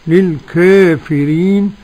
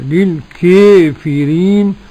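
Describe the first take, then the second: First: The long a leans slightly toward e. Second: The long a shifts strongly toward e. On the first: "قرأ ورش بالتقليد" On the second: "وقرأ بالإمالة الكبرى"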